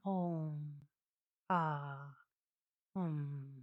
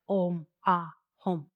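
First: The syllables are said softly and gently. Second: The syllables are said loudly and forcefully. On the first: The speaker calls it right. "Very gentle" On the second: The speaker calls it wrong. "it's not like"

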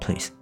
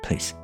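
No difference in how they are said.

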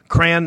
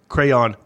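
First: The word is said as one syllable. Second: The word is said as two syllables. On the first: "Cran is one syllable" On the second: "Crayon, two syllables"

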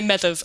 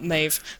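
First: The name has its medieval Irish pronunciation. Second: The name has its modern Irish pronunciation.

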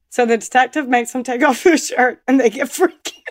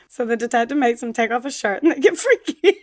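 First: It is said through laughter. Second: It is said in a normal voice.

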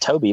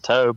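First: The name is said with two syllables. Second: The name is said with one syllable. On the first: "it's Toby" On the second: "I've heard a lot of people pronounce it Tobe"

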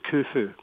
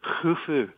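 First: It begins with a plain hard k sound. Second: It begins with a rough throaty kh sound. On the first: "as opposed to" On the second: "It's actually pronounced kh, as in loch"

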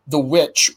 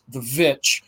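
First: The word starts with a W sound. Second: The word starts with a V sound.

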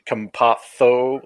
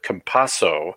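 First: Said the Spanish way, with a th sound. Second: Said the Argentine way, without a th sound. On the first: "if you're in Spain, you pronounce it Campazzo, like the TH on the Z's" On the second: "if you are in Argentina, you pronounce it Campazzo"

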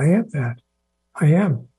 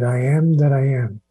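First: There is a pause after that. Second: It runs on with no pause after that.

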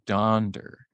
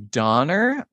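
First: A d sound follows the n before the ending. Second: The n runs straight into the ending, no d. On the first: This is the original form of the name. The speaker calls it right. "the correct way is actually Donder" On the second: This is how many people commonly say it. The speaker calls it wrong. "I've heard a lot of people say Donner"

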